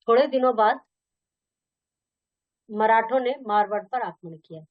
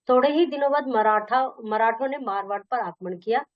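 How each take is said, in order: First: Said in the usual way. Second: Emphasis falls on the particle ही; stress on ही. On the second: Shown as a demonstration. Teacher reading a comparison sentence, stress on ही. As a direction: lean on ही within the phrase. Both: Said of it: "अलग से एक प्रकार का बल आ जाता है".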